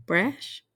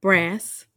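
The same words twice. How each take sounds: First: "brash" ending in sh; brash pronunciation. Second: "brass" ending in a plain s; brass pronunciation. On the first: Trying out which word is right, "brash" with final sh. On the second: Trying out which word is right, "brass" with final s. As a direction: say "brass" with a hissless short s, not sh. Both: Shown as a demonstration.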